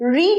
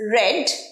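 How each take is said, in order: First: It is said as the present-tense pronunciation. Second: It is said as the past-tense pronunciation. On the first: It means to read now. "read এর" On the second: It means the reading already happened. "past tense read"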